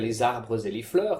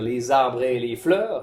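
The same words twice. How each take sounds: First: The final e of arbres is pronounced. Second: The final e of arbres is silent. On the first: This suits sung verse, not ordinary speech. The speaker calls it wrong. "de ne pas dire" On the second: This is how it is said in ordinary speech. The speaker calls it right. "il est tout à fait juste et même conseillé de dire"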